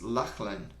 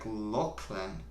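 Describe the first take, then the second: First: Lachlan with an open "ah" in the first syllable; own reading. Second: Lachlan with a rounded "o", like LOCK-lən; corrected pronunciation. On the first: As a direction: say Lachlan as LAHK-lən. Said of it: "I would pronounce your name like". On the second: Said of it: "you pronounce it like". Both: Shown as a demonstration.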